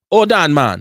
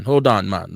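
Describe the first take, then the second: First: Put-on loud Jamaican accent with HOLD punched; put-on Jamaican accent, louder take. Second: Put-on low Jamaican accent with HOLD stressed. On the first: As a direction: call out in a jokey Jamaican accent. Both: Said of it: "Was that a good Jamaican accent".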